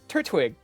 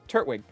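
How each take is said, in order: First: The second T is pronounced strongly and separately. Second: The second T blends smoothly into the word. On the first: The speaker calls it wrong. "It's the second T that you're way over pronouncing" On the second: The speaker calls it right. "If you could ju- just go"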